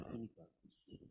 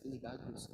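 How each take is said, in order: First: Hushed, nearly whispered "Ini bagus"; parent's emphasis. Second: Said in the usual way. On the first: Shown as a demonstration. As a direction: drop "Ini bagus" to a soft, meaningful hush. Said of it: "has a different way to it". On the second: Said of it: "Not just".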